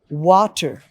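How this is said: It is said in a neutral accent. "That's the normal pronunciation. Not British, not American"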